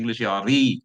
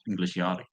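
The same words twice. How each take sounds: First: The word ending is said sharply and forcefully. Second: The word ending is said gently and softly.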